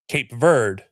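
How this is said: The name is said with an American English pronunciation. "the American English version, is"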